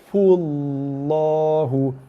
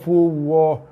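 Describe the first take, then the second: First: The l sound is clearly pronounced and heavy. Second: The l sound is missing, sliding into w. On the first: The speaker calls it right. "Lam pada lafzul jalalah, nama Allah dibaca tebal" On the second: The speaker calls it wrong. "Fuwah lidah tak sentuh pada makhraj ataupun rumah lam"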